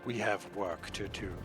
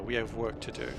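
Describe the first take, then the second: First: It is said in a deliberately sinister tone. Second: It is said in a plain, ordinary tone.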